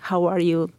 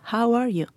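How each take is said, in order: First: It sounds quick and casual, without real interest. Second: It sounds warm and sincere, with real interest.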